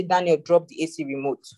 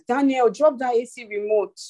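First: Put-on mild, even mother's request to her child; a mother asking her son calmly, without pushing; mother calmly tells Daniel to drop the remote. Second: Higher, firmer mock warning to a child; a mother raising her pitch as her patience runs out; mother warns Daniel a second time, higher and firmer. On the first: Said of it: "mommy is talking very calmly". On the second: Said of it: "if I did not raise my voice".

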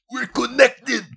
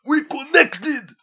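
First: Much higher, louder squealed exclamation; hammed-up fan squeal; mocking gushing fan. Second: Even higher, louder and very slow; hammed-up slow fan wail; drawn-out mocking fan. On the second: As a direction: stretch the squeal out in mock rapture. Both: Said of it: "they're like".

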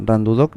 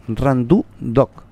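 First: Said in the usual way. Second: "Randu Doc" drawn out slowly, syllable by syllable; corrected name pronunciation. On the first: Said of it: "no es Randu Doc, es Randu Doc". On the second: Shown as a demonstration. Host correcting how the nickname is said, "Randu Doc" slow and deliberate. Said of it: "no es Randu Doc".

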